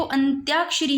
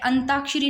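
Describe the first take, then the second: First: "अंत्याक्षरी" with a y glide after t; corrected pronunciation. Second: "अंताक्षरी" with plain ta, no y glide; rejected pronunciation. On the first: Teacher giving the correct word, "अंत्याक्षरी" with tya. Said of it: "अंत्याक्षरी है". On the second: Teacher showing the error, "अंताक्षरी" without the y. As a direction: drop the y in "अंताक्षरी". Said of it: "अंताक्षरी नहीं है". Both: Shown as a demonstration.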